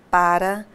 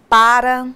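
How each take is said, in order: First: "para" said lightly as the preposition, no stressed syllable; unstressed preposition para. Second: "para" said as the verb, stress on first syllable "PA-ra"; stressed pára. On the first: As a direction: throw away "para" as the plain preposition. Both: Shown as a demonstration. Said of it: "pares de palavras com grafias idênticas e pronúncias diferentes".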